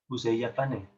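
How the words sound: The pitch falls at the end. It is a statement. "La entonación es descendiente, va hacia abajo"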